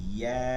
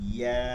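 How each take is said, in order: Both takes have the same delivery.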